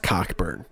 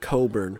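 First: The name is said with a k sound. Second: The name is said without a k sound. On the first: This is how the speaker believes the name is said. The speaker calls it right. "I know damn well that shit is Cockburn" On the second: This is how others say the name. The speaker calls it wrong. "every TV announcer pronounces it Coburn"

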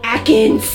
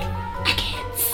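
First: The word is said at a louder volume. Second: The word is said at a softer volume. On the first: The speaker calls it right. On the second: The speaker calls it wrong.

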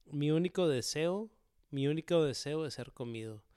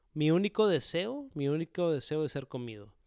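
Both takes have the same delivery.

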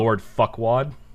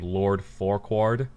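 First: The name is said quickly and run together. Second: The name is said slowly and clearly.

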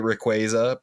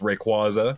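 First: The middle syllable has an 'ay' vowel. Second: The middle syllable has a low 'ah' vowel. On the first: The speaker calls it wrong. "I will never say Rayquaza because that it's gross" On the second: The speaker calls it right. "It's Rayquaza"

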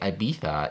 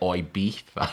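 First: The word is said in a standard accent. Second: The word is said in an Essex accent. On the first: The speaker calls it wrong. "Instead of saying Ibiza" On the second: The speaker calls it right. "you should say Ibiza"

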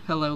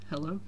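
First: The greeting is said more loudly. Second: The greeting is said at normal volume.

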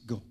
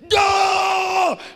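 First: The word is spoken quietly under the breath. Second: The word is shouted loudly.

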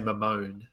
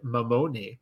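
First: The name is pronounced in a plain English way. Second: The name is pronounced in an Italian way. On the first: "I'm going to say Mamone just because it's easier" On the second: "you're almost sound Italian with that pronunciation on Mamone"

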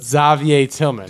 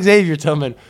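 First: The first name has a French pronunciation. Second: The first name has an English pronunciation. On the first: The speaker calls it right. "but Xavier Tillman. He's French" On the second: The speaker calls it wrong. "Not Xavier Tillman"

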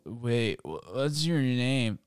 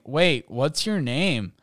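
First: It is said in a slurred, drunken mumble. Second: It is said clearly, in a plain voice.

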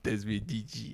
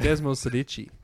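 First: The middle of the name has no S sound. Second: The middle of the name has an S sound. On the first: The speaker calls it wrong. "Why did I say" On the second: The speaker calls it right. "It actually has an S in it"

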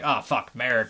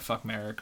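First: It is said with a pause before Merrick. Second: It is said without a pause before Merrick.

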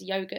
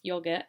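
First: The word is said with an Australian pronunciation. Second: The word is said with a British pronunciation. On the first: "in Australia, yogurt is yogurt" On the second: "in the UK, yogurt is yogurt"

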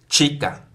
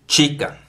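No difference in how they are said.

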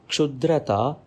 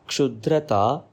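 The two takes are said the same way.

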